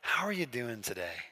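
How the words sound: The greeting sounds warm and sincere.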